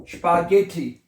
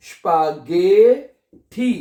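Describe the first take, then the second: First: Said in the usual way. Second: स्पागेठी very slowly, गे stretched and lifted; sounding out. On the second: Shown as a demonstration. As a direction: teach स्पागेठी syllable by syllable. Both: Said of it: "क्या बनेगा".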